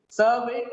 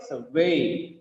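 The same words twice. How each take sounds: First: SURvey, high on Sur; stress on first syllable. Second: "survey" as sur-VEY, falling; weak low sur, strong VEY in "survey"; stress on second syllable. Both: Shown as a demonstration. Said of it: "the stress is on second syllable".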